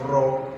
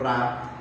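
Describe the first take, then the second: First: The vowel is a rounded 'aw' sound. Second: The vowel is an open 'ah' sound. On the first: The speaker calls it right. "That's why we pronounce it as raw" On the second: The speaker calls it wrong. "not ra"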